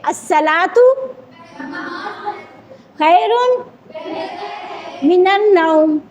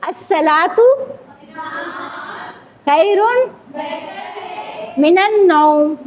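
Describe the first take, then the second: The two takes are said the same way.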